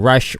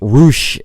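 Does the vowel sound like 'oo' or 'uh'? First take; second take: uh; oo. First: The vowel is a short 'uh' sound. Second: The vowel is an 'oo' sound. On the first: The speaker calls it wrong. "I should stop saying rush" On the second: The speaker calls it right. "I should be saying roosh instead of rush"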